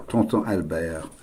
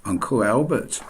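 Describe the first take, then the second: First: Tonton Albert said softly in French, Albert as al-BAIR; French way of saying the name; French pronunciation. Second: Uncle Albert the English way, with a sounded t; English pronunciation. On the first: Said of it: "I also have a French uncle". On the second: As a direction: say it plainly in English. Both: Shown as a demonstration.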